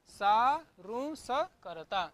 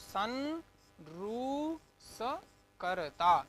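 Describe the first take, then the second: First: The vowel before s is itself nasalized. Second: A separate nasal sound follows the vowel. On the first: "अनुनासिक कर दीजिए" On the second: "अनुस्वार करते हैं"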